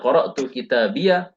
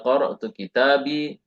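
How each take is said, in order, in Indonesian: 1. Kata terakhir berakhir dengan 'iyya' yang ganda. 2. Kata terakhir berakhir dengan 'i' biasa. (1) "Kita bisa membaca qara'tu kitabiyya" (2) "yang masyhur ya mutakallimnya seringnya dengan sukun"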